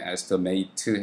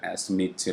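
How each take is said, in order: First: It is pronounced the way the verb sounds. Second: It is pronounced the way the noun sounds. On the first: It means to estimate something. "이게 동사로 발음이 되면 estimate" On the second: It means a quote or an estimate. "명사로 쓰였네요. 그럴 땐 발음이 또 estimate 이렇게 바뀝니다"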